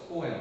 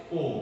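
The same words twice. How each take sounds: First: "poem" said as po-em, in two syllables. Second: "poem" run together as one syllable, pome. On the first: Teacher showing students the familiar way, "poem" as po-em. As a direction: sound both vowels in "poem": po-em. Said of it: "આપણે અત્યાર સુધી પોએમ બોલતા આવ્યા છે". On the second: Teacher showing students the audio's way, "poem" as pome. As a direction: say "poem" like pome, rhyming with home. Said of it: "we call it". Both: Shown as a demonstration.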